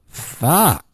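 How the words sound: It sounds excited.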